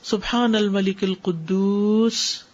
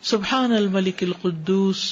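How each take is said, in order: First: It is said slowly and drawn out. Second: It is said at normal length.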